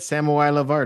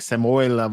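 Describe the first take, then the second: First: The name is split into separate words. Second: The name is run together as one word. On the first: The speaker calls it right. "it actually said" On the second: The speaker calls it wrong. "trying to pronounce it as one word"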